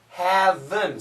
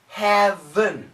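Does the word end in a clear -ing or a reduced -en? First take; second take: -en; -en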